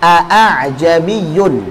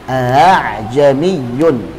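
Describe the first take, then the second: First: Both hamzas are fully pronounced, sounding heavy. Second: The second hamza is softened toward a long vowel. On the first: "harusnya ada dua hamzah dan berat pengucapannya" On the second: "Tashil itu mengucapkan antara hamzah dan huruf mat"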